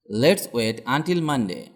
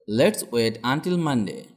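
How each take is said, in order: Both takes have the same delivery.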